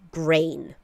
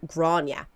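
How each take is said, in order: First: The name is said like the word grain. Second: The name is said like Grania. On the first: This is how the child's family says the name. The speaker calls it wrong. "nor do I like the way the pronunciation was butchered" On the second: This is how the name is typically said in Ireland. The speaker calls it right. "in Ireland, they typically pronounce it like Grania"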